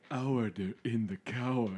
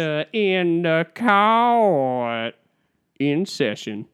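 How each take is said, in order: First: Lightly voiced judge; understated take on a courtroom call; a hint of a judge calling order; Sandra Day O'Connor impression. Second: Very long, belted courtroom call, high then settling; town-crier judge stretching every word; hammed-up, drawn-out proclamation to open court; Sandra Day O'Connor impression. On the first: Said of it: "I'd like to do my impression of Sandra Day O'Connor". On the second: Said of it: "Let, let me try it again".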